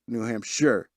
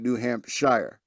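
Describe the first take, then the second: First: The last syllable rhymes with fur. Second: The last syllable rhymes with fire. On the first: The speaker calls it right. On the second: The speaker calls it wrong.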